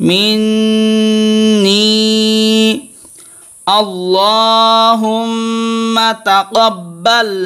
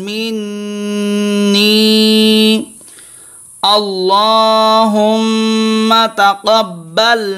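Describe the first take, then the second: Both takes have the same delivery.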